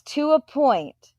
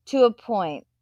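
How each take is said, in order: First: To a point, slow and high, leaning on each word; stressed qualifier. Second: Said in the usual way. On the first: Shown as a demonstration. Streamer half-agreeing with a chatter, stressing to a point slowly. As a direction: drag out to a point to stress the limit.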